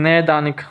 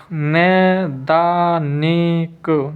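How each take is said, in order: First: Said in the usual way. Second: नैदानिक very slowly, नै-दा-नि-क; slow, drawn-out नैदानिक for writing down; syllable-by-syllable dictation. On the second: Shown as a demonstration. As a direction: stretch every syllable of नैदानिक. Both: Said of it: "नई दानिक कैसे लिखेंगे".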